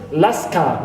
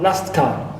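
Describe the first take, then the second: First: The t at the end of last is dropped. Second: The t at the end of last is pronounced. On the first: The speaker calls it right. "That's why it is omitted usually, and we pronounce it last car" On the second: The speaker calls it wrong. "not last car"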